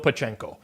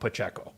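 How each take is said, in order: First: The name is said with an n sound. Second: The name is said without an n sound. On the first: The speaker calls it wrong. "There's no Pachenko" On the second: The speaker calls it right. "the pronunciation of Pacheco because there's no N"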